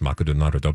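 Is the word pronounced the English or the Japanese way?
Japanese. It is said with added vowels, Japanese style.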